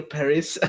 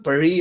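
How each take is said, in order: First: Paris said "PAIR-iss"; English pronunciation. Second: Paris said the French way, "pa-REE"; French pronunciation. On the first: Host offering the other option, Paris in English pronunciation. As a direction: sound the final s in Paris, stress up front. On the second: Host unsure of the city's name, Paris in French pronunciation. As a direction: silent final s in Paris, stress on the end. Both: Shown as a demonstration. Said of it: "Is it called Paris or Paris".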